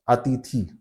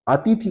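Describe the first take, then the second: First: अतिथि with a long final ई; long final vowel. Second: अतिथि with a short final इ; correct short vowel. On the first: Teacher showing the common error, mispronunciation demo. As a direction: let अतिथि end in a long ee. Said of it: "लेकिन ये दीर्घ ई हो जाता है". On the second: Teacher showing what nobody says, correct pronunciation demo. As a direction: clip the last i of अतिथि short. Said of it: "अतिथि कोई नहीं बोलेगा". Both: Shown as a demonstration.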